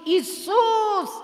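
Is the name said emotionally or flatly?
emotionally. The name is said with strong emotion. The whole being calls out in need. The speaker calls it right. "Кажи с емоции"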